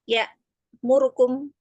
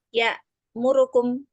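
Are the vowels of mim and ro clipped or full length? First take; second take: clipped; clipped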